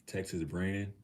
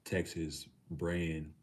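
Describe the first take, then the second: First: Puzzled question. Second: Slow reading out. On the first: Real, not acted. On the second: Shown as a demonstration.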